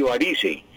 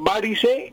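First: Slow "varice" said va-RI-se; "varice" drawn out, weight on the middle syllable; middle stress. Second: Slow "varice" said VA-ri-se; "varice" drawn out, weight on the first syllable; first-syllable stress. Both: Shown as a demonstration. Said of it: "hay doble acentuación".

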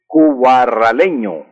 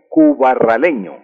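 First: "cubarraleño" despacio, marcando cada sílaba; slow and careful. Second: Said in the usual way. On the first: Shown as a demonstration. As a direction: dicta "cubarraleño" con calma, sílaba por sílaba. ("cubarraleño" lento y claro, como dictado) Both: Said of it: "Y los nacidos en Cubarral".

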